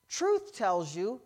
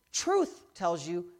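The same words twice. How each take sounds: The two takes are said the same way.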